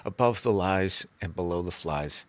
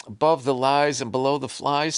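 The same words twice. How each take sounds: First: Above the Lies and Below the Flies said lower and softer with a falling end; soft guru saying title. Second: Above the Lies and Below the Flies read out eagerly by a host, rising at the end; mock host announcing title. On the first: Pretend. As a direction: present your own title calmly like a guru. Author says own title.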